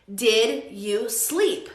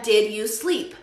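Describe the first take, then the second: First: Very slow, word by word; slow model question. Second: Said in the usual way. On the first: Shown as a demonstration. Teacher repeats the corrected question, slowly spaced out. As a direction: separate DID, YOU and SLEEP clearly.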